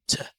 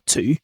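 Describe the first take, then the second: First: The word has a reduced vowel. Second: The word has a full vowel. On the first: The speaker calls it right. "to becomes t" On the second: The speaker calls it wrong. "not to"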